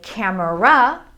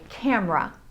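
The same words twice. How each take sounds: First: It is said with three syllables. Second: It is said with two syllables. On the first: It follows the spelling. "We could say camera" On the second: It is the usual everyday form. "we tend to take out that middle schwa sound and just say camera"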